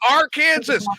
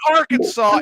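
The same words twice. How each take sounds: First: The word ends sounding like 'Kansas'. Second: The word ends with a 'saw' sound. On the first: The speaker calls it right. "There is an R in front of Kansas, it's Arkansas" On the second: The speaker calls it wrong. "It's not Arkansas"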